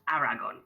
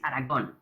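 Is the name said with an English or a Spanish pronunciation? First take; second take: English; Spanish. First: It is said with an English pronunciation. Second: It is said with a Spanish pronunciation. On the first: The speaker calls it wrong. "English people pronounce it that way" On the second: The speaker calls it right. "It's Aragon"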